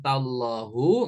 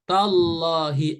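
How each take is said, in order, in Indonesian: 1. Kata ini diakhiri dengan vokal u. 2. Kata ini diakhiri dengan vokal i. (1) "nggak boleh" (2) "huruf H berharokat kasroh"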